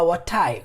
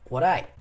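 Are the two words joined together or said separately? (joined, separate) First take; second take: separate; joined. First: The two words are said separately. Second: The two words are linked together. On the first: The speaker calls it wrong. "Não fala what I" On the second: The speaker calls it right. "Nós falamos como what I"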